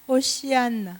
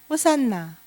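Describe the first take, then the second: First: It is said with an added 'shi' sound, ho-shi-an-na. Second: It is said with two middle syllables, ho-san-na. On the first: This is the Hebrew pronunciation. "히브리어 발음은 호시안나" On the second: This is the usual Korean form. "우리는 호산나 그러죠"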